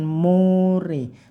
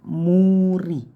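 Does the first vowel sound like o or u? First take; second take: o; u. First: The first vowel leans toward an o sound. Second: The first vowel is a clear long u sound. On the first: The speaker calls it wrong. "jangan sampai miring ke o, bukan more" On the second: The speaker calls it right. "tapi muri ya"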